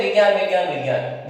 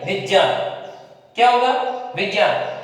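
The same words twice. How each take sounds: First: Said in the usual way. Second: विज्ञान with ज and ञ both sounded; careful विज्ञान, vij-nyaan; correct pronunciation. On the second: Shown as a demonstration. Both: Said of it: "विज्ञान नहीं".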